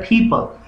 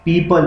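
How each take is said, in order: First: The first p has a strong puff of air. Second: The first p is plain, without a puff of air. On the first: The speaker calls it right. "फे के sound के साथ बोला जाता है" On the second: The speaker calls it wrong. "हम पीपल बोलते हैं"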